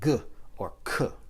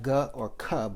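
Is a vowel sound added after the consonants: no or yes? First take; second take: no; yes. First: Each consonant is said bare, without vowel. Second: A vowel sound follows each consonant. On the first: The speaker calls it right. "just the sound" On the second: The speaker calls it wrong. "you're adding the A value or the A consonant after"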